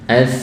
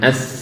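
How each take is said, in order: First: The s sound is soft and flowing. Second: The s sound is pressed too hard. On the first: The speaker calls it right. "nah, mengalir nih" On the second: The speaker calls it wrong. "nah ini terlalu menekan"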